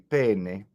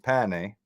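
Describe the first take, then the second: First: The first vowel is closed. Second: The first vowel is open. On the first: It means pain. "close the first e" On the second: It is a vulgar word for a body part. "open the first e"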